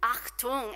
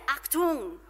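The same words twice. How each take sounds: First: Achtung with a throaty German ch. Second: Achtung with a throaty German ch, louder. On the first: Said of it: "sounds way better in German". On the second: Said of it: "that throatiness of the German". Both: Shown as a demonstration.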